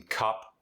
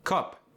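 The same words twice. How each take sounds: First: Said in the usual way. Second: South African "Cup", high with a rounded vowel; South African accent. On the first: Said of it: "The short U sound". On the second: Shown as a demonstration. Teaching the South African short U, accented "Cup". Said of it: "is rounded".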